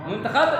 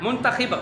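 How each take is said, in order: First: मुंतखब ending in "-khab"; short a after the kh in मुंतखब; correct pronunciation. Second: मुंतखिब ending in "-khib"; short i after the kh in मुंतखिब; mispronunciation demo. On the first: Teacher showing pupils the fix, correct pronunciation. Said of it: "दुरुस्त". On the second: Teacher showing pupils the error, mispronunciation demo. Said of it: "मुंतखिब गलत". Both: Shown as a demonstration.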